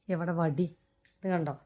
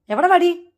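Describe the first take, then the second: First: Softly, under the breath, എവിടെ വടി? low and hushed; quiet threat. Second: എവിടെ വടി? called high and loud; mock threat shout. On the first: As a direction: mutter the threat to yourself. Threatening pet, later shouted. (പതുക്കെ ഭീഷണി) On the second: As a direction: shout for the stick to scare the pet. Threatening pet loudly. (ഉറക്കെ വടി ചോദിച്ച്) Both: Real, not acted.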